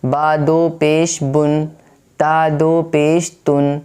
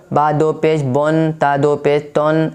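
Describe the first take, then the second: First: بن and تن with a short, clear u; correct short u. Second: بن and تن with a long o, like bon, ton; wrong majhool o. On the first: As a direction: say بن as bun, تن as tun. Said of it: "میں جیسے بتاؤں آپ کو ویسے ہی پڑھنا ہے". (معروف تلفظ: بن، تن چھوٹی پیش کے ساتھ) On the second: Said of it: "ایسے نہیں پڑھنا ہے". (غلط مجہول تلفظ: بون، تون) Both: Shown as a demonstration.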